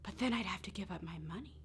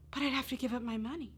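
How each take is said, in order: First: Said in the usual way. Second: Put-on fretting little girl. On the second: Girl voiced weighing her choice.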